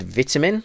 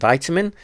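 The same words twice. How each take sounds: First: It is said with a British pronunciation. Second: It is said with an American pronunciation. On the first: "giggling at me using the word vitamin" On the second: "rather than vitamin"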